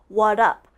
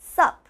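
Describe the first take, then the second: First: The s sound is dropped from the first word. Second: Only the single syllable sup is said. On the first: "They take out the S" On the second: "some people even just say sup"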